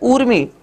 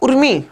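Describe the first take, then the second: First: The first vowel is long. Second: The first vowel is short. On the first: The speaker calls it right. "शुद्ध उच्चारण जब हम करें तो ऊर्मी होता है" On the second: The speaker calls it wrong. "एक तो होता है उर्मी"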